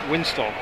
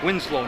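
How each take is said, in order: First: The second syllable begins with a T sound. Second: The second syllable begins with an L sound. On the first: The speaker calls it wrong. "not Winstow" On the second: The speaker calls it right. "It's Winslow"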